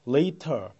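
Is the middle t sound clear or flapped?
clear. The middle t is pronounced clearly and crisply. "later 이렇게 읽는 것이 영국 발음이 되겠습니다"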